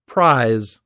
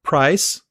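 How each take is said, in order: First: "prize" with a lengthened vowel before buzzing z; longer vowel, voiced z. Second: "Price" with a short vowel before hissed s; shorter vowel, voiceless s. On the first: Teacher showing vowel length rule, "prize" with long vowel and z. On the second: Teacher showing vowel length rule, "Price" with short vowel and s. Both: Shown as a demonstration. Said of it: "This is called the vowel length rule".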